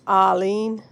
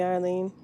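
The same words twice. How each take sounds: First: A failed try at a Boston accent on "Arlene", said louder as "Ah-leen" with the r dropped; Boston accent attempt, saying "Arlene" as "Ahleen". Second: Said in the usual way. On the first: Shown as a demonstration. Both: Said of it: "I can't even get the Boston accent down".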